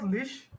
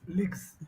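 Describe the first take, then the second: First: The word ends with an sh sound. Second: The word ends with a g-z sound. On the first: The speaker calls it wrong. "So it's not lish" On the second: The speaker calls it right. "I'm saying legs with the G sound"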